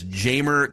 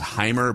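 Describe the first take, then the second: First: The name begins with a J sound. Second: The name begins with an H sound. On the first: "the American way to pronounce it is Jamer" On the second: "I think the correct pronunciation is Heimer"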